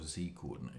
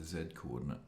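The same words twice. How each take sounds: First: Z is said the American way, as zee. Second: Z is said the British way, as zed.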